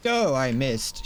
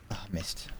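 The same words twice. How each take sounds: First: Said in the usual way. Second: Voiceless whispered aside. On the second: Real, not acted. Sneaking up on an enemy, a soft whisper. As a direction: breathe it out with no voice.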